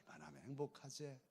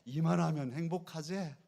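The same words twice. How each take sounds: First: Quiet. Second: Loud, lifted 이만하면 행복하제 for the crowd to echo; rousing preacher's call-and-response; loud call to repeat. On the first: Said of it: "여러분 행복하신가요?". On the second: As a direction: call it out so the congregation can repeat. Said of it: "우리 한번 해보십시다". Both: Shown as a demonstration.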